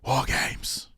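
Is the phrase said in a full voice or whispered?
whispered. It is said in a whisper. "if you whisper it? ... it doesn't sound cool though"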